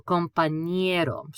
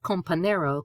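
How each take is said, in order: First: "compañero" with ñ as ny, com-pan-YEH-ro; slow, careful ny glide in "compañero"; N-Y sound. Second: "compañero" mispronounced with a plain n, com-pa-NAIR-o; English-style n in "compañero"; wrong plain N. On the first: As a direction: say "compañero" slowly with a clear ny. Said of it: "pretend that's an N Y sound". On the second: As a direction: say "compañero" without the ny. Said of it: "Not compañero". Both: Shown as a demonstration.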